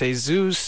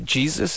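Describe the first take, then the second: First: The name is pronounced the Spanish way. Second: The name is pronounced the English way. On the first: This is how it is said in Mexico. "because it works reverse in Mexico, it's Jesus" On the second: This is how it is said here. "over here, it's you say Jesus"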